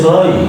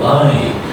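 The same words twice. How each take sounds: First: The vowel is not the 'eye' sound. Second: The vowel is the 'eye' sound. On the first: The speaker calls it wrong. "You don't say by" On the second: The speaker calls it right. "No, by. ... It sounds like I"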